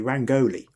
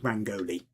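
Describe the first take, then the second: First: The stress is not on the first syllable. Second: The stress is on the first syllable. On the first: "I'm tempted to say Rangoli" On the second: "the emphasis tends to be on the first syllable"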